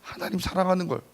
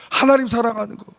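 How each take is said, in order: First: Said in the usual way. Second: 하나님 punched high and loud; 하나님 rings out loud and high; stress on 하나님. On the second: Shown as a demonstration. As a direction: hit 하나님 hard, louder than the first take. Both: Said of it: "repeats with emphasis".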